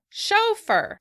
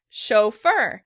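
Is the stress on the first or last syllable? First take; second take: first; last. First: The stress is on the first syllable. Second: The stress is on the last syllable. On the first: This is the British pronunciation. "In British English, the word is said chauffeur" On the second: This is the American pronunciation. "we're shifting the stress to the end of the word"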